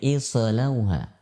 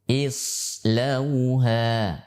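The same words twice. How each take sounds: First: The sad sound is released with a bounce. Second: The sad sound is held without a bounce. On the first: The speaker calls it wrong. "tidak boleh islauha" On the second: The speaker calls it right. "Harus dibaca tanpa pantulan, tanpa kolkolah"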